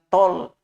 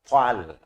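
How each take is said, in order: First: The vowel sounds rounded, like 'o'. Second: The vowel sounds open, like 'a'. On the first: The speaker calls it wrong. "jangan tol" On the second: The speaker calls it right. "Ta tebal, tal"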